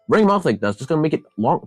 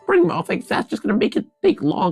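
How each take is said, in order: First: It is said in the speaker's normal voice. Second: It is said in a put-on character voice. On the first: "I'm gonna speak normally now" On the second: "I missed up the voice"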